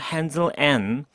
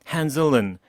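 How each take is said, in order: First: The word 'and' is said fully and clearly. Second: The word 'and' is reduced to a weak 'n'. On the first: "and로 똑바로 발음하는 거" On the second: "은 발음으로 슈아 발음으로 처리하는 방식"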